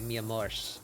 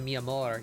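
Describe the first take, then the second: First: The word ends in an sh sound. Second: The word ends in a plain r sound. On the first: "their ending R's turn into S H" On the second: "as opposed to mi amor"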